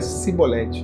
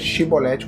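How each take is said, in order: First: The word begins with an s sound. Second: The word begins with an sh sound. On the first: The speaker calls it wrong. "a forma errada era cibolete" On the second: The speaker calls it right. "A forma correta era shibolete, como se fosse chiclete"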